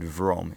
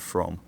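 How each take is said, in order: First: The word begins with a voiced v sound. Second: The word begins with a voiceless f sound. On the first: "you heard vrom instead of from" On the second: "instead of from"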